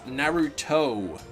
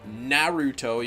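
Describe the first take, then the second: First: The stress is on the last syllable. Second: The stress is on the first syllable. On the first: "You capitalize toe" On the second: "you gotta put like the na as capital letters"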